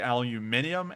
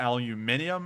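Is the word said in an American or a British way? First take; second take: British; British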